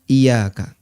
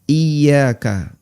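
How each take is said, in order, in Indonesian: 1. Bunyi y pendek dan tunggal. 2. Bunyi y ditahan panjang dan digandakan. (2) "Dan tasdidnya harus ditekan"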